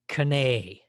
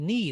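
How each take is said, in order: First: The K at the start is pronounced. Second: The K at the start is silent. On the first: This is the pronunciation before the Great Vowel Shift. "The K was pronounced, the N was pronounced, and the two E's were pronounced" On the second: This is the modern pronunciation. "people didn't say knee"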